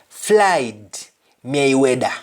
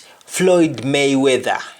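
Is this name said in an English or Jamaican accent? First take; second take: Jamaican; English. First: It is said in a Jamaican accent. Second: It is said in an English accent.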